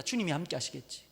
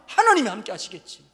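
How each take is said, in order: First: Soft, let-it-go muttered prayer, quieter; handing it to the Lord with a quiet sigh of 주님이; resigned prayer. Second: Louder, insistent prayer pressing on 하나님이; fierce prayer. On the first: Runner praying to himself, quiet and resigned. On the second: Runner praying fiercely to God, louder and insistent. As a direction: demand it of God, voice rising hard. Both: Retold or imitated. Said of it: "기도가 점점 싸나워져요".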